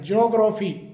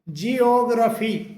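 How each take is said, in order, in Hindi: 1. शुरुआत एक ही अक्षर में सिमट गई है, 'jyo'। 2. शुरुआत में दो अक्षर हैं, 'jee-oh'। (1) "इसे ज्योग्राफी करके बोला जाता है" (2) "इसका सही जो प्रोनाउंसिएशन होता है"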